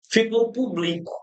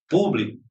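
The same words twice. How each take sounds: First: Publico stressed on the middle syllable, pu-BLI-co; the verb form, pu-BLI-co; publico without accent. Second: Público with stress on the first syllable, PÚ-bli-co; PÚ first, then bli-co. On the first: Teacher shows publico, stress moved to bli. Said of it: "Vamos tirar o acento?". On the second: Teacher showing Público stressed on the first syllable. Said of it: "Essa palavra é acentuada obrigatoriamente?". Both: Shown as a demonstration.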